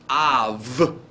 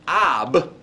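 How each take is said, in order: First: The word ends with a soft v sound. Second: The word ends with a hard b sound. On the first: The speaker calls it right. "but av. Hear the V sound" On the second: The speaker calls it wrong. "not ab"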